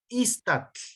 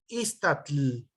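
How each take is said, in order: First: The final L is voiceless, with air pushed out. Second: The final L is voiced, with the vocal cords vibrating. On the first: The speaker calls it right. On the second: The speaker calls it wrong.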